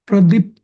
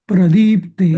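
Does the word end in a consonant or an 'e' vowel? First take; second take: consonant; e vowel. First: The word ends without a final vowel. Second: The word ends with a final e vowel. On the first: The speaker calls it wrong. "प्रदीप्त नाही म्हणायचं" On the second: The speaker calls it right.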